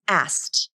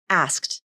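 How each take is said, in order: First: The K sound is dropped. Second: The K sound is clearly pronounced. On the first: "the middle K consonant can be dropped" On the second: "four symbols, which means there are four sounds"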